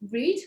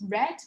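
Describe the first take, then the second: First: The vowel is a long 'ee' sound. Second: The vowel is a short 'eh' sound. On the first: It refers to the present. "which is the present simple tense" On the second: It refers to the past. "which is the past tense"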